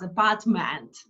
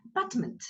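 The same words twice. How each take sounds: First: Apartment with a full, open MENT at the end; wrong full vowels. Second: Apartment with the first vowel almost swallowed; quick weak vowels around PART in Apartment; schwa, barely heard. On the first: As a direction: sound every vowel fully in apartment. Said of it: "I didn't pronounce apartment". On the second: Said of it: "You almost don't hear it". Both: Shown as a demonstration.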